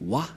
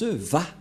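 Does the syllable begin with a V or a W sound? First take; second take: W; V. First: The syllable begins with a W sound. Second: The syllable begins with a V sound. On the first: The speaker calls it wrong. "ces termes se prononcent selon eux en W ... C'est pourquoi les gens disent Wa" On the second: The speaker calls it right. "Les juifs le prononcent Va"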